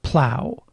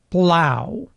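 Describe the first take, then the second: First: The l after p is voiceless. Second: The l after p is voiced.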